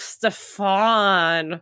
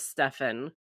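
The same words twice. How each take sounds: First: The name is said the Italian way. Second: The name is said the plain English way. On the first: "Italian. So I'm like, Stefan" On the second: "in the Vampire Diaries, it's he's, his name is Stefan"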